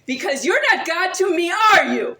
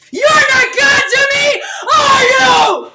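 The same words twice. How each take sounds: First: Said in the usual way. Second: Screamed much higher and much louder, voice cracking toward a cry; screaming the same challenge again at full force; tearful all-out shriek at the screen; real furious scream. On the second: Real, not acted. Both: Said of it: "tell them I shouted".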